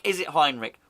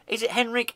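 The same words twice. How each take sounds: First: Second guess at the name Heinrich; trying the name Heinrich. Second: Henrik said with a short "hen" sound, as in hen; first guess at the name Henrik; trying the name Henrik. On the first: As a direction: pronounce Heinrich as HINE-rich. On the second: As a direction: pronounce Henrik as HEN-rik. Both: Shown as a demonstration.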